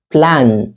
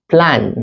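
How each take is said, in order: First: The final n is clearly pronounced. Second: The same.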